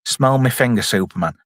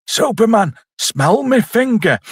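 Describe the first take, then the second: First: Said in the usual way. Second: High-pitched, drawn-out taunt; taunting villain. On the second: Acted. Villain pestering Superman with his finger, mock taunt. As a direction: call it out high, stretching the words. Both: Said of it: "Is it like".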